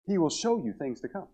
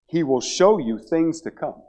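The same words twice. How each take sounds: First: A hushed second reading for emphasis; soft echo. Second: Said in the usual way. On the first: Real, not acted. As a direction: repeat it much softer, rising at the end.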